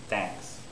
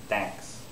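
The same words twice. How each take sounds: No difference in how they are said.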